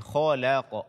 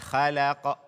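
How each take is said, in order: First: The kh sound is heavy and thick. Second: The kh sound is light and thin. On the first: The speaker calls it right. "akan tapi" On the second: The speaker calls it wrong. "membaca kho dengan tipis ... Jangan dibaca"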